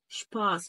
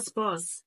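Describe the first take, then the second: First: The word begins with an sh sound. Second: The word begins with a plain s sound. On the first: The speaker calls it right. "شبا شباس شباس" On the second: The speaker calls it wrong. "ما تقوليش بقى سباس"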